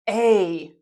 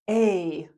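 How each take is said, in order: First: It is said with a full 'ay' vowel. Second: The same.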